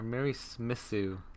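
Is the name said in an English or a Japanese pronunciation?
Japanese. The name is said with Japanese pronunciation.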